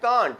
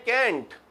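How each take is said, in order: First: The vowel sounds like the one in car. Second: The vowel sounds like the one in cat. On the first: "कुछ लोग बोलते हैं कांट" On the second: "कुछ लोग इसको बोलते हैं कैंट"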